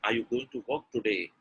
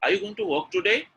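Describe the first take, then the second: First: "today" drops low at the end; falling tune. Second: "today" climbs at the end; lifted question ending up on "today"; rising tune. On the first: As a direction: let "Are you going to work today" fall away. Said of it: "something called a falling pattern". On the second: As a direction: ask it higher, rising on "today". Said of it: "called a rising pattern". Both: Shown as a demonstration.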